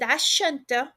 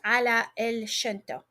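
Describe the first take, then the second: First: The words ala el merge into the noun. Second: The words ala el are said fully and separately. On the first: "we are combining" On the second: "that basically means ala el shanta"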